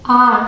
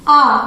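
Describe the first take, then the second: First: आर with the r clearly sounded; आर ending in a full r; American pronunciation. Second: आ drawn out long with no r sound; आ held long, r dropped; British pronunciation. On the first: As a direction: sound the r at the end of आर. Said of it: "American English में र properly pronounce किया जाता है". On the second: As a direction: stretch आ and keep the r silent. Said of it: "आर silent होगा और आ को थोड़ा खींच के बोलेंगे". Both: Shown as a demonstration.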